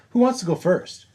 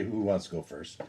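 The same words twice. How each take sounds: First: Much higher, sing-out question; high-pitched call. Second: Softer, understated quoted question; low-key question. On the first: Player voices asking the table who goes first, high call. Same question repeated, called out. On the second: Player voices asking who goes first, soft and low-key. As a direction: ask it quietly, almost as an aside. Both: Acted.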